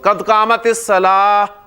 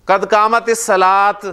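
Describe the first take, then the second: First: The final word ends with an h sound. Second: The final word ends with a t sound. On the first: The speaker calls it right. "हा की आवाज जो है वो निकलेगी" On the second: The speaker calls it wrong. "ते बोलेंगे"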